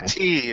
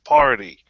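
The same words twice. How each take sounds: First: The stress is on the second syllable. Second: The stress is on the first syllable. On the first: "emphasis is on the second syllable" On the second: "instead of the first"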